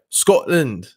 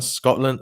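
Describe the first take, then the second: First: It is said in a put-on Scottish accent. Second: It is said in his own plain accent.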